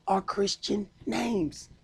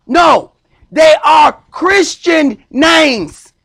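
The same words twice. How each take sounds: First: Said in the usual way. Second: Full-force sermon declaration; preaching shout. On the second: Acted. Preacher repeats his point, shouting.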